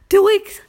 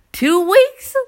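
First: Two weeks pitched even higher; exasperated high repeat. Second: Two weeks pitched high and loud; exasperated high emphasis. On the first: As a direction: hammer two weeks again. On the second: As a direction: stress two weeks in disbelief. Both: Real, not acted.

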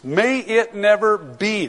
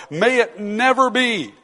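First: Said in the usual way. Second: Never said higher and slower, with full weight; emphatic, stress on never. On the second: Shown as a demonstration. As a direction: lean hard on never, drawing out the whole line. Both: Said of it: "That's the strongest emphatic in the Greek".

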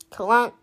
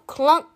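First: A heavy metal clunk, voiced like the car; imitated engine clunk. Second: Said in the usual way. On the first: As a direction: make the broken engine go clunk. Car noise imitated in story.

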